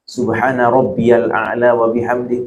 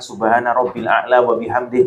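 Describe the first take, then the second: First: A 'ya' syllable is heard after 'rabbi'. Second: No 'ya' syllable is heard after 'rabbi'.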